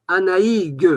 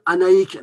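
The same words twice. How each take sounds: First: Anaïg with a voiced final G, said high and loud; wrong final g. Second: Anaïk ending in a hard K sound; correct final k. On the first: Teacher showing the wrong way: Anaïg ending in a voiced G. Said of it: "parce que c'est écrit avec un G". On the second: Teacher giving the right Breton way: Anaïk with a final K. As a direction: harden the end of Anaïk into a K. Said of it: "on doit dire Anaïk". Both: Shown as a demonstration.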